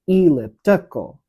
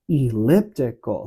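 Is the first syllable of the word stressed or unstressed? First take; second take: stressed; unstressed. First: The first syllable is stressed. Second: The first syllable is an unstressed pickup. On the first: The speaker calls it wrong. "putting an emphasis on the beginning of, of each pairing" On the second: The speaker calls it right. "It has a pickup into that word elliptical"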